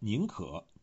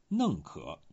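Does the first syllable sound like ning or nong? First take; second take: ning; nong. First: The first syllable is said as ning. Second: The first syllable is said as nong.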